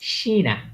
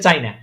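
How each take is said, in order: First: The word begins with an 'sh' sound. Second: The word begins with a 'ch' sound. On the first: This is the German pronunciation. "চায়নাকে বলে কি? শিনা" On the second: This is the English pronunciation. "ইংলিশে চায়না।"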